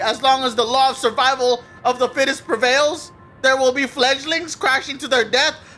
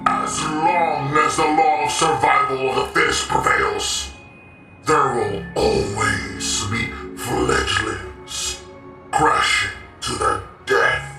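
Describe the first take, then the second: First: It is read in his plain voice. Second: It is read in a villainous, Thanos-like voice.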